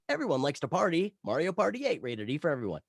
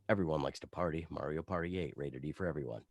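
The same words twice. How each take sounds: First: It is read with raised, salesy energy. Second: It is read in a cool, relaxed way. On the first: It pushes to sell more units. "you bring up the energy" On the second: It stays out of the way of the ad. "the cool laid back one"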